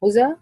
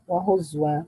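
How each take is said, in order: First: هزا said "huza", no glottal stop; hamza dropped, naql. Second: هزوا said "huzwa"; slow هزوا, a w right after the z; hamza turned to waw. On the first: Teacher repeating the first stopping form, هزا without hamza. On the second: Teacher repeating the second stopping form, هزوا with waw. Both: Shown as a demonstration. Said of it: "وجهان".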